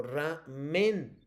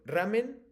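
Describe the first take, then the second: First: "ramen" in two beats with MEN stressed; "ramen" said slowly as raMÉN. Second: "ramen" as one word, stressed on the first syllable RA; "ramen" said as RÁmen. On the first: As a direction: pause after ra, then lean on MEN in "ramen". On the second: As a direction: hit RA in "ramen", keep men light. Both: Shown as a demonstration. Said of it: "Te lo pronuncio".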